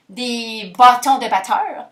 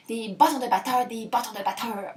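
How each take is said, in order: First: Slow, drawn-out "bâtons de batteurs"; playing with sounds. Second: "bâtons de batteurs" repeated softer and quicker, fading; playing with sounds. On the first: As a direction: savour each sound of "bâtons de batteurs", stretching it. (« bâtons de batteurs » étiré lentement, en jouant sur les sons) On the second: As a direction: toy with "bâtons de batteurs", letting it fade. (« bâtons de batteurs » répété plus bas, en s'éteignant) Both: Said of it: "j'aime ça, les jeux de mots puis les sons".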